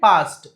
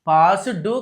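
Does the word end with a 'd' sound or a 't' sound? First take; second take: t sound; d sound. First: The word ends with a 't' sound. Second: The word ends with a 'du' sound. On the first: The speaker calls it right. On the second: The speaker calls it wrong. "పాస్ డూ కాదండి"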